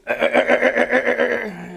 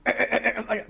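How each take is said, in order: First: Much louder, higher "ack, ack" mixed with laughter; laughing gun noise. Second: Sharp staccato "ack, ack" like an anti-aircraft gun; ack-ack gun noise. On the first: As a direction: blast the gun noise, cracking up. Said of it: "And they go". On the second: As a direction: rattle off the gun noise, higher and louder. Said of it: "I go". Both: Retold or imitated.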